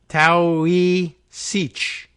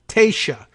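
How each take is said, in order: First: The word begins with a 'tau' sound. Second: The word does not begin with 'tau'. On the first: The speaker calls it wrong. "Tau, we would say, normally we would say" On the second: The speaker calls it right. "No, Taoiseach"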